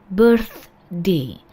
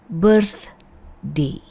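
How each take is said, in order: The two takes are said the same way.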